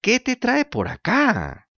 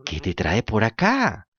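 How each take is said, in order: First: High, slow, sugary fox greeting; sly fox voice. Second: Dull echoing cat. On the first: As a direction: purr it like a scheming fox. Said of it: "gritó la zorra". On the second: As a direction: parrot the fox lazily as the cat. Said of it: "repitió el gato". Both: Acted.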